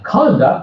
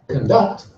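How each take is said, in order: First: The stress is on the first syllable. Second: The stress is on the second syllable. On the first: It is a noun meaning behavior. "It's a noun" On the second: It is a verb meaning to lead. "to lead, for example, an orchestra"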